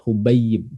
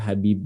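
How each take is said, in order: First: The first vowel is u, with a doubled y. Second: The first vowel is a, with no doubled y. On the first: The speaker calls it right. "Jadi dibacanya adalah uh, Hubayib" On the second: The speaker calls it wrong. "Jadi jangan dibaca Habib, ya, salah"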